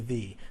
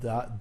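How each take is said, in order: First: The vowel is a long 'ee' sound. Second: The vowel is a short 'uh' sound. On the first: The next word starts with a vowel. "if the is used before a vowel ... then of course we you say the" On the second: The next word starts with a consonant. "if the is used before a consonant, like the car, you pronounce it the, as in the, duh"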